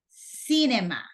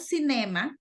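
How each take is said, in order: First: The stress is on the first syllable. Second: The stress is on a later syllable. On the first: The speaker calls it right. "The stressed syllable, it's C" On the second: The speaker calls it wrong. "No cinema"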